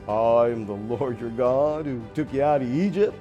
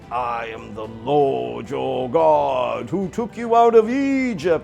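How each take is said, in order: First: It is said like a used car salesman. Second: It is said in a loud, booming voice.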